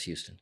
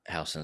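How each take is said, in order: First: Houston is pronounced the local way. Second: Houston is pronounced the New York way. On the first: "but the one here is Houston" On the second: "is the way you say it in, in New York"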